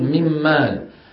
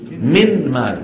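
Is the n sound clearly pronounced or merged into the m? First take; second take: merged; clear. First: The n is merged into the following m. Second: The n is clearly pronounced before the m. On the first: This is how Arabs actually say it. "ولا يظهرون النون" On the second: This is the original form that nobody uses. "كانوا في الأصل مفروض شو يقولوا؟"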